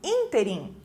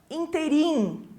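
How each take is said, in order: First: The stress is on the first syllable. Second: The stress is on the last syllable. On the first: The speaker calls it right. "a pronúncia é mais forte nesse in" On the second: The speaker calls it wrong. "não vai colocar a sílaba tônica no final da palavra"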